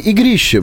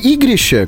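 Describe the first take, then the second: First: The stress is on the second syllable. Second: The stress is on the first syllable. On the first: "именно вот на второе «и» ударение ставить" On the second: "как я сказал"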